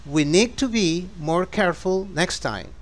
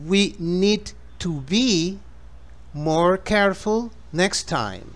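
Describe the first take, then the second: First: It is spoken at a faster pace. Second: It is spoken slowly and gently.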